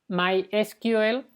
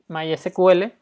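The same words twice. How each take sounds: First: The name is said the standard way. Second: The name is said the Latino-style way.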